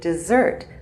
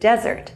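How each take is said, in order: First: The stress is on the second syllable. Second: The stress is on the first syllable. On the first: It names what we eat after dinner. The speaker calls it wrong. "he pronounced it dessert, what we eat after dinner" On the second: It names an area of land without water. The speaker calls it right. "the area of land without water"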